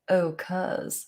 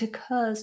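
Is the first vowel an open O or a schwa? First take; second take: open O; schwa. First: The first vowel is a full O sound. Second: The first vowel is a weak schwa. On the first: The speaker calls it wrong. "Some people who are very posh might use a different vowel. They might do more of an O" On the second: The speaker calls it right. "In in in a sentence, it would definitely begin with a schwa"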